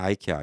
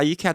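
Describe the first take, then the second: First: The first syllable sounds like 'ai'. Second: The first syllable sounds like 'ee'. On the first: The speaker calls it wrong. "아이케아가 사실 틀린 발음이에요" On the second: The speaker calls it right. "이케아가 맞는 거예요"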